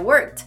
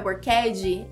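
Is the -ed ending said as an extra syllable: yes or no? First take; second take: no; yes. First: The ending is a single t sound. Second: The ending is said as an extra syllable. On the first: The speaker calls it right. "é worked" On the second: The speaker calls it wrong. "não é worked"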